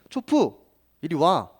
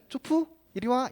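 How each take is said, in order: First: It is said in a stern, scolding tone. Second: It is said in a sweet, affectionate tone. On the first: The dog is misbehaving and not listening. "말을 안 들을 때면" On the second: The dog is adorable and will be petted. "마냥 귀여울 때는"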